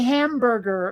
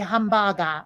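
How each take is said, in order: First: It is said in a plain English accent. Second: It is said in a Japanese accent. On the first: "can I just say hamburger" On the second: "do you want me to accent it up"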